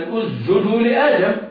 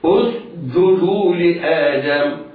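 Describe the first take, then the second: First: The s disappears and becomes a j. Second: A hissing s is followed by a hard j. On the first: The speaker calls it wrong. "فينطقونها جيما ... ويخفون السين" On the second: The speaker calls it right. "ينطق بالسين ساكنة غير مقلقلة ثم يصحبها صفيرها ثم ينطق بالجيم شديدة"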